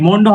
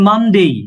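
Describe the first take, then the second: First: The first vowel is a rounded o sound. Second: The first vowel is an open a sound. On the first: The speaker calls it wrong. "অনেকে কিন্তু এটা হলো মন্ডে, মন্ডে হবে না sir." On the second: The speaker calls it right. "এটা মানডে।"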